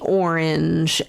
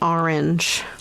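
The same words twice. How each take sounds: First: It is said with the local accent. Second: It is said with a New Jersey accent.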